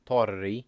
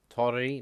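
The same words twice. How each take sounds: First: Torri with the r held longer, tor-ri; held double r. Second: Torri with a short single r, to-ri. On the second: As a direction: keep the r in Torri quick. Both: Shown as a demonstration. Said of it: "You have to hold double letters for longer".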